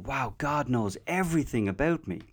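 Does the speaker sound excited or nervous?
excited. The voice sounds excited and joyful. Being fully known feels wonderful. "being excited on one level"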